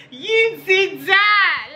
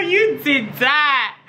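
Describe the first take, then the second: First: Excited high praise. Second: Excited praise. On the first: Hyping repeat, higher. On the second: Hyping her own look. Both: Pretend.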